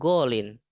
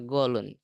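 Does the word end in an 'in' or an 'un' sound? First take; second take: in; un. First: The word ends with an 'in' sound. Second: The word ends with an 'un' sound. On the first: The speaker calls it right. "ini mankus. Nggak bisa dibaca domah" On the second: The speaker calls it wrong. "nggak dibaca golun"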